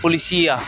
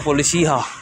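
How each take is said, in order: First: The last syllable starts with a y sound. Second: The last syllable starts with an h sound. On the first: This is how it is said in Brazil. "sa Brazil" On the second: This is how it is said here.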